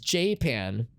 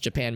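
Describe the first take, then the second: First: Japan is said the local, altered way. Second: Japan is said the usual standard way. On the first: "They pronounce it as Japan" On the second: "don't pronounce it as Japan"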